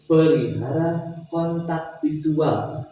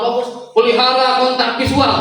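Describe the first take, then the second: First: Lowered slow delivery. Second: Raised intonation demo. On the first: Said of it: "turunkan nadana". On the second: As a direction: lift the pitch to grab focus. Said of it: "Lamun di-, ditinggikan". (nada ditinggikan dan lebih keras) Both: Shown as a demonstration.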